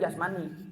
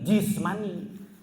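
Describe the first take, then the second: First: The first vowel is pronounced 'a'. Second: The first vowel is pronounced 'i'. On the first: The speaker calls it wrong. "bahasa Arabnya bukan jasmani" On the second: The speaker calls it right. "Yang benar itu jismani"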